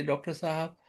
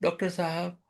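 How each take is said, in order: First: Soft, low-energy moan to the doctor; a weak patient groaning for help; moaning plea. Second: Moaning plea. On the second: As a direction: groan the name like you can barely speak. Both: Shown as a demonstration. Patient moaning softly to his doctor, a mild moan. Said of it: "वो मोन कर रहा है".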